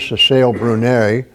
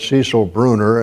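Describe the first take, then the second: First: The name is said as Cecile Brunet. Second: The name is said as Cecil Bruner. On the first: The speaker calls it right. "I have pronounced that one correct" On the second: The speaker calls it wrong. "I used to always call it Cecil Bruner"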